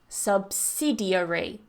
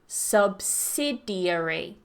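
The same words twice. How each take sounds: No difference in how they are said.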